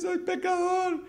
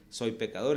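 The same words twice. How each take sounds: First: Put-on high, slow tearful child voice; crying little boy. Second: Said in the usual way. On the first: Son confessing to his father, high and tearful. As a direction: sob it out like a scared small boy.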